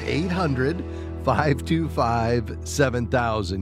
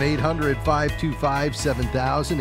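First: The number is said more slowly. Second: The number is said at normal pace.

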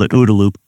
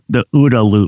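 First: The phrase is said at a normal pace. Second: The phrase is said slowly.

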